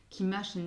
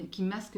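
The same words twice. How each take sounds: First: "masque" slurred to "mache", the sk blurred into a sh sound; slip of the tongue. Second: "masque" said cleanly with a clear sk ending; corrected word. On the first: Reading cards to Taurus viewers, "masque" slurred to mache. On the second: Fixing her slip for viewers, "masque" said clearly. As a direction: correct yourself and say "masque" properly, sk crisp. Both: Real, not acted.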